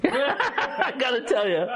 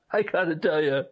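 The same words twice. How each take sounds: First: Said through a laugh, slowed; laughing it out slowly; giggling the phrase before repeating it. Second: Said in the usual way. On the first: Real, not acted.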